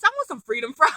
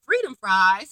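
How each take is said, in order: First: Giggling craving for freedom fries; breaking into a laugh mid-word; laughing through it. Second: Said in the usual way. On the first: Real, not acted. Recapping a TV meal to viewers, laughing.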